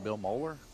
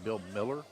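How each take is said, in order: First: The surname is said like Moeller. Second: The surname is said like Miller. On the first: The speaker calls it wrong. "not Bill Moeller" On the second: The speaker calls it right. "Banker Bill is actually Bill Miller"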